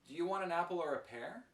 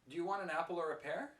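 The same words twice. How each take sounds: No difference in how they are said.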